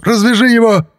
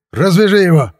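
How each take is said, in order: First: Very high, loud frantic command; wild yell. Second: High, loud command; shouted order. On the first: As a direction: yell the order like a man possessed. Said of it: "дурным голосом заорал полицейский". (орать дурным голосом) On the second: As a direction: order him sharply at gunpoint. Armed policeman gives an order. (громкий приказ, высокий голос) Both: A narrator's reading.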